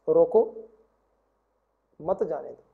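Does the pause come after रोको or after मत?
after रोको. The pause comes right after रोको.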